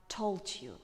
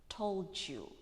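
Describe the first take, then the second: No difference in how they are said.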